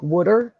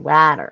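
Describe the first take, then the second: First: It is said with a Philadelphia accent. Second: It is said with a Boston accent. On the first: "That's how we say it. It's like wood, like wooder" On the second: "in Boston they say water. Like I can't even say it right"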